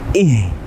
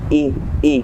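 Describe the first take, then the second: First: The h sound is strong and clearly heard. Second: The h sound is thin and barely heard. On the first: The speaker calls it right. "Harusnya ih dina" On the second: The speaker calls it wrong. "dengan tipis seperti ihdinas sira i i kurang jelas"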